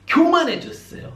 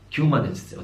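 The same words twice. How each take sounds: First: "교만해졌어요" cried out much higher and slowed, stretched; emphatic high stretch. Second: Said in the usual way. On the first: Shown as a demonstration. Preacher driving home the point to the congregation: "교만해졌어요" pitched high and slow. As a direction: make "교만해졌어요" soar high and slow, lingering on it.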